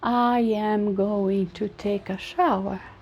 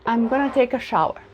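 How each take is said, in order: First: Each word is said fully and calmly. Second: The words are reduced and run together. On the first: The speaker calls it wrong. "com essa calma toda" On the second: The speaker calls it right. "Vai sair"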